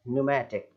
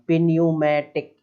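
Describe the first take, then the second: First: The word starts directly with the n sound. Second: A p sound is heard at the start. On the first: The speaker calls it right. "केवल न्यूमेटिक" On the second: The speaker calls it wrong. "पिन्यूमेटिक ऐसा नहीं बोलना है"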